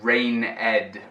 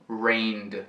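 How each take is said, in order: First: The word is said with two syllables. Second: The word is said with one syllable. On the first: The speaker calls it wrong. "Não é rained" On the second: The speaker calls it right. "Uma sílaba só, mas agora com o som do D aglutinado"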